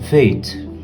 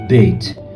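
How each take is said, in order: First: The letter name begins with a v sound. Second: The letter name begins with a b sound. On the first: The letter has no dagesh dot. "Sem o Dagesh" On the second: The letter carries the dagesh dot. "Com o Dagesh"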